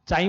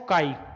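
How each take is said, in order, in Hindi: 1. यह शब्द ch की आवाज़ से शुरू होता है। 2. यह शब्द k की आवाज़ से शुरू होता है। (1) "चाई मत बोलना" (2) "इसको बोलते हैं काई।"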